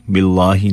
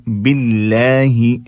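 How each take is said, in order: First: "बिल्लाहि" with a rounded, heavy laa; everyday "बिल्लाहि", not chanted, darker aa; wrong heavy lam. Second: "बिल्लाहि" slow, with a light lam and long aa; slow tajweed "बिल्लाहि", light L; thin lam. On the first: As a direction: say "बिल्लाहि" in conversation, thick L. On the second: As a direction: recite "बिल्लाहि" with a thin, drawn-out laa. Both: Shown as a demonstration. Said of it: "बिल्लाहि नहीं".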